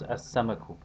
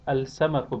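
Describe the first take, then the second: First: The l merges into a doubled s. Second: The l is pronounced before the s.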